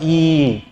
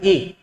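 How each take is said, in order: First: The vowel is drawn out long. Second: The vowel is said short. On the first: "अगर मैं इसका उच्चारण लंबा करना चाहूं" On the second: "इसको कैसे उच्चारित करें"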